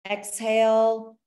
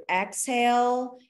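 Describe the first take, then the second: First: Slow, louder exhale cue stretched out; drawn-out exhale cue. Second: Slow exhale cue. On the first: Coach cueing class, slow stretched exhale. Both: Shown as a demonstration. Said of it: "every time you lean forward".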